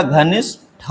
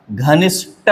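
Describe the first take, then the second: First: घनिष्ठ slowly, ending in puffed 'tha'; correct aspirated ending. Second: घनिष्ठ ending in plain 'ta'; no puff of breath ending घनिष्ठ; wrong unaspirated ending. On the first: Teacher gives the correction, घनिष्ठ with aspirated tha. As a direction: separate an aspirated ठ at the end of घनिष्ठ. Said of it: "होता है". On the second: Teacher rejects a common error, घनिष्ठ with unaspirated ta. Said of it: "नहीं होता". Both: Shown as a demonstration.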